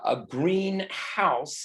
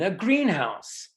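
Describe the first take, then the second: First: The stress falls on house. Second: The stress falls on green. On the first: A house that is green in color. "a green house is a house that is green" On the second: A building where plants are grown. "Stress on the first uh, syllable uh, if it's one word"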